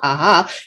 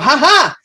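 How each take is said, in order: First: It is said as a casual laugh. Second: It is said as a startled cry.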